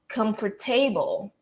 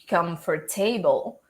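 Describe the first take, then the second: First: The ending is said as a full 'table'. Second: The same.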